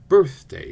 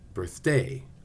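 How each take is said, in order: First: The stress is on the first syllable. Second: The stress is on the second syllable. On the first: The speaker calls it right. "we always stress the first syllable, birth" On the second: The speaker calls it wrong. "not birthday"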